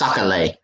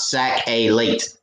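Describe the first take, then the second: First: The word ends without a 't' sound. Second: The word ends with a 't' sound. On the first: The speaker calls it right. "It's Sakale" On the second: The speaker calls it wrong. "It's not sac a late"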